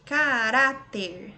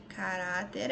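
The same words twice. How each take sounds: First: Caráter drawn out slowly, loud on "rá"; slow syllable stress. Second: Said in the usual way. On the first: Shown as a demonstration. Teacher helping students hear the tonic, slow loud "rá" in Caráter. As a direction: stretch Caráter and hit the RÁ. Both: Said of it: "Você vai pronunciar aí devagarzinho".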